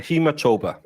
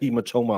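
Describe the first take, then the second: First: The word ends with a b sound before 'a'. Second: The word ends with an m sound before 'a'. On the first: "It is a hematoba" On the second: "I've been saying"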